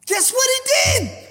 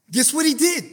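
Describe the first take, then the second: First: High, impassioned preacher's question; high-pitched, fervent challenge; emphatic repeat. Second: Said in the usual way. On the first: Real, not acted. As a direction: throw the question out high and urgent.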